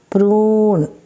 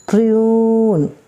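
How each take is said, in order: The two takes are said the same way.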